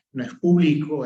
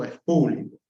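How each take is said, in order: First: Público read as written, stressed pu-BLI-co; público said without the accent, weight on BLI; público as the unaccented spelling reads; wrong stress. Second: Público with the stress on PÚ; público said properly, first syllable stressed; público corrected to PÚ-bli-co. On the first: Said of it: "lo lee tal como aparece escrito". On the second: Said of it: "Falta tilde en la U". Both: Shown as a demonstration.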